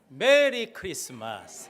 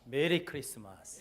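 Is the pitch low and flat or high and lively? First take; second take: high lively; low flat. First: It is said with raised, lively pitch. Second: It is said with low, flat pitch.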